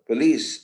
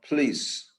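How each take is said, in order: First: The p has no puff of breath. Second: The p has a puff of breath. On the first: "are going to say" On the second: "and not"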